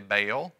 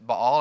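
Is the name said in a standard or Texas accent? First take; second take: Texas; standard. First: It is said with a Texas accent. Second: It is said with a standard accent.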